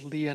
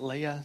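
First: The name is said unlike the princess's name. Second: The name is said like the princess's name. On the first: This is the biblical name. The speaker calls it right. "Elise informed me that it's Leah" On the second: This is the Star Wars princess's name. The speaker calls it wrong. "not Leah. She's not a princess"

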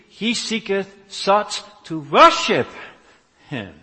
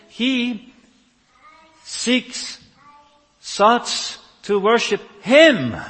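First: The emphasis does not fall on 'Him'. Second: The emphasis falls on the final word 'Him'.

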